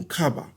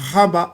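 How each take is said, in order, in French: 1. Le mot commence par un son K. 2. Le mot commence par un son H. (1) "le son du K" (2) "le son du H"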